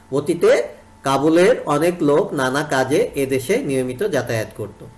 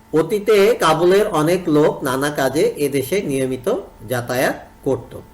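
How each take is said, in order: No difference in how they are said.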